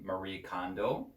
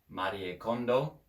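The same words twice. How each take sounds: First: The name is said with an American pronunciation. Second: The name is said with a Japanese pronunciation. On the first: "if you say it in a English or an American pronunciation" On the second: "in Japanese"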